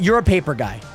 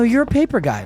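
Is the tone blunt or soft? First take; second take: blunt; soft. First: It is said in a blunt, harsh tone. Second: It is said in a soft, gentle tone.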